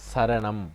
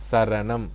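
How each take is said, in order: The two takes are said the same way.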